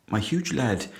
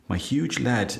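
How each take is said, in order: Both takes have the same delivery.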